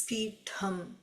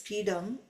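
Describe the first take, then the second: First: The middle consonant is an aspirated t sound. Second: The middle consonant is a plain d sound. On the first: This is the Sanskrit way of saying it. "the Sanskrit pronunciation ... it is the second ta, ta, tha" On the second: This is the everyday Tamil way of saying it. "We use D in that as Pidam. In Tamil common parlance"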